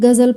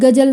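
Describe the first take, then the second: First: Fricative gh and z sounds, with the nukta. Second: Plain g and j sounds, without the nukta. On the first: The speaker calls it right. "गज़ल पढ़ेंगे" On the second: The speaker calls it wrong. "इसको गज़ल नहीं पढ़ेंगे हम"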